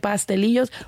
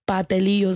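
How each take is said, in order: First: The S before the T is pronounced. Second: The S before the T is dropped. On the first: This is the speaker's own way of saying it. "am I supposed to say pastelillos" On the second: This is how the other person says it. "patelillos like you say it"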